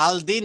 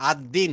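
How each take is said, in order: First: আল দিন with a full clear l sound; wrong take, আল দিন with the l kept; wrong form with al. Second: আদ দিন with the l dropped and the d doubled; assimilated ad-din. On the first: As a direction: pronounce আল দিন sounding the l before দিন. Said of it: "আল দিন হয় না". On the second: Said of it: "দটা দুইবার উচ্চারণ হয়". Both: Shown as a demonstration.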